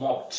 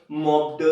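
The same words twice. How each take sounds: First: मॉप्ड ending in a crisp "t"; correct -ed sound. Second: मॉप्ड as a clumsy "mop-duh"; wrong -ed sound. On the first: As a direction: say मॉप्ड as "mopt", no vowel after it. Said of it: "आपको क्या बोला है". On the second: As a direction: add a voiced "duh" to मॉप्ड. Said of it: "very bad". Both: Shown as a demonstration.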